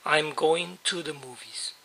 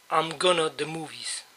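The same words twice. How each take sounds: First: "going to" kept in full, "goin' tu", before the noun; the correct version, unreduced. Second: "gonna" wrongly used before a noun, "I'm gonna the movies"; a wrong example, said softly. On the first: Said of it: "siempre va a ser". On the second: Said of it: "nunca puedo decir". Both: Shown as a demonstration.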